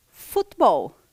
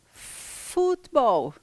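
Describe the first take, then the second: First: Loud model word. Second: Futebol stretched out slowly and higher; slow model. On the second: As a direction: draw out futebol slowly for learners. (futebol bem devagar e alongado) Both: Shown as a demonstration.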